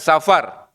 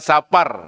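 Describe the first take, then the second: First: The middle consonant is an f sound. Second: The middle consonant is a p sound. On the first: This is the Arabic form. The speaker calls it wrong. "Bukan Safar" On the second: This is the native Javanese form. The speaker calls it right. "Pengucapannya asli Jawa"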